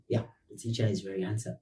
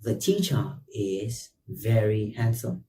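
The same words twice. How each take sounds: First: Fast, much softer, tossed-off self-compliment; quick joking aside. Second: Said in the usual way. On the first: Real, not acted. Teacher slyly agreeing he is handsome, quick soft aside. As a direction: mutter it as a cheeky joke about yourself.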